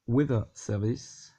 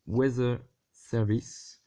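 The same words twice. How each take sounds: First: Slow, careful French-accented retry of Weather; second attempt at English. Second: Weather with a z for th, "wezzeh"; slow, halting French-accented "Weather Service"; French-accented English. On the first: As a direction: say Weather with a tongue-tip th, no z. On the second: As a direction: say Weather with a buzzing z in place of th. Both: Real, not acted. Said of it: "l'anglais et moi, ça fait deux".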